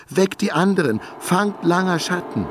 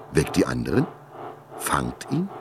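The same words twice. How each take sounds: First: Full-throated shout. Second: Lower, quieter disbelieving echo of „Weckt die anderen?“; incredulous echo. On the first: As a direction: bellow the order to wake everyone. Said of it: "rief sie aus voller Kehle". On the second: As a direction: repeat her words in dazed disbelief. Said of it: "erwachte Langer Schatten aus seiner Starre". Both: A narrator's reading.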